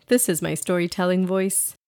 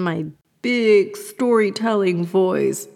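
First: Said in the usual way. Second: Hammed-up big storyteller, drawn out; mock storytelling voice. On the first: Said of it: "Just kidding". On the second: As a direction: put on an exaggerated storytelling voice as a joke. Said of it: "Just kidding. This is my storytelling voice".

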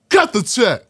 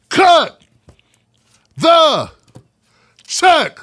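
First: Said in the usual way. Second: Loud, high, with a long pause after every word; catchphrase shout. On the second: Real, not acted. Host opens the show with his catchphrase, shouted word by word. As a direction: punch each word separately, high and loud.

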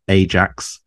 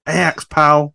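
First: Said in the usual way. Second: Punchy, raised "Ajax" with the j softened to y; playful mispronunciation. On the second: Pretend. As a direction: say "Ajax" as AY-ax, pitched up. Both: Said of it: "that's why I pronounce it as Ajax".

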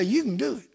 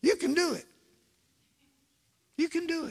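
First: Said in the usual way. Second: Higher coaxing repeat. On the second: Shown as a demonstration. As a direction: coax it up high, gently. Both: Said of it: "Look at your neighbor and say".

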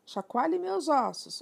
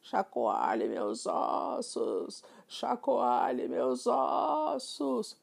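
First: Ghost voice. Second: Very slow, eerie drawn-out ghost moan; ghostly whisper. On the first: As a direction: parrot doing a higher, slower, louder ghost moan. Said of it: "numa imitação incrível de uma voz de fantasma". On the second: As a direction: moan it out slowly like a haunting spirit. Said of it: "em um tom sussurrante e fantasmagórico". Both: Acted.

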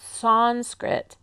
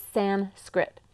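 First: Sanskrit said with a D and a P, sand-skript; wrong Sanskrit. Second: Sanskrit said clean, no D and no P; right Sanskrit. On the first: Teacher shows the wrong way to say it, Sanskrit with D and P. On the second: Teacher gives the correct Sanskrit, slow and careful. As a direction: Sanskrit with a crisp san and skrit. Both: Shown as a demonstration. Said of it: "there's no D and no P".

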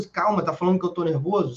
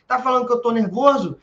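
First: Said in the usual way. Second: Higher and louder, challenging; mock angry outburst. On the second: Aggressor escalating at his partner, mock angry. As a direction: snap it back as if provoked. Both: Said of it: "E já era".

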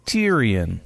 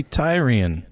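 First: Tyrion begun like "tier"; TEER-ee-un. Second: Tyrion begun like "tie"; TIE-ree-un. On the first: Host questions the show's pronunciation, Tyrion said TEER-ee-un. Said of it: "Why wouldn't it just be". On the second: Host argues for his own reading, Tyrion said TIE-ree-un. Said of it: "Why does it have to be". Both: Shown as a demonstration.

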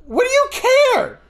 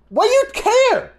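First: High, forceful shout; retold shout. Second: High, strained shout; retold yell. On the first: Shouting back at the aunt, high and forceful. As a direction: throw it back at her, pitched way up. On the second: Yelling back at the aunt, high and strained. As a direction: snap it back at her, pitched way up. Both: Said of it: "I'm paraphrasing half my sentence".

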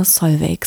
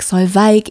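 First: Solveig said as Sol-veck, hard k ending; first way of saying the name. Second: Solveig said as Sol-vike, ei like eye; second way of saying the name. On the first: Host greets guest, saying Solveig as Sol-veck, name plain. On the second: Host corrects herself, saying Solveig as Sol-vike, slightly louder. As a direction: say Solveig with a long vike ending. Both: Shown as a demonstration. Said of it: "dir ist es egal, wie man's ausspricht".

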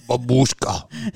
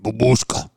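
First: Slow Russian babushka. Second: Babushka with a heavy Russian accent. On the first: Russian accent, slowly teaching a friend babushka. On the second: Russian accent, insisting on how to say it. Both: Shown as a demonstration. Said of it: "You must say it like babushka".

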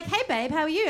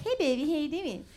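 First: Said in the usual way. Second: Put-on cutesy baby-voice greeting; demonstrated baby talk. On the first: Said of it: "Like, he'd be like". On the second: Shown as a demonstration. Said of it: "I didn't even know I was doing it".

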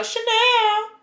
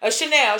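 First: CHANEL sent up high and drawn out; playful show-off repeat. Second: Said in the usual way. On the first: Pretend. Rich friend bragging about shopping, CHANEL said high and showy.

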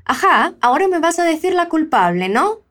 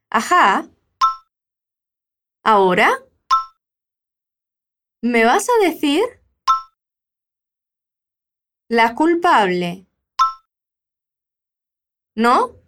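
First: Ajá, ahora me vas a decir la culpable, ¿no? said in one smooth run, no pauses; all in one go. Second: Long pauses between each chunk of the line. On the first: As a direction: run the whole line together without stopping. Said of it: "falar tudo de uma vez". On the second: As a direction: break it into pieces, pause after each. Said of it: "repete o que a Roberta diz". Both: Shown as a demonstration.

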